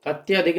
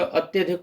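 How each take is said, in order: First: अत्याधिक with a long आ after त्य; the incorrect अत्याधिक, with a long second vowel; wrong form. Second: अत्यधिक with a short अ after त्य; the correct अत्यधिक, short vowel; correct form. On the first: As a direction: say अत्याधिक with the full long आ, ət-yaa-dhik. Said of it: "अत्याधिक नहीं होता". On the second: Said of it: "अत्यधिक होता है". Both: Shown as a demonstration.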